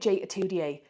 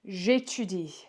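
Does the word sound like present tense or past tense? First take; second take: past tense; present tense. First: It is pronounced so it sounds past tense. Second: It is blended as the present-tense form. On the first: The speaker calls it wrong. "that sounds like the past tense" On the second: The speaker calls it right. "So when we blend this all together, we get"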